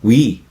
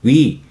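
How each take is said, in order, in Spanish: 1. Se dice como una sola sílaba. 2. Se dice como una sola sílaba.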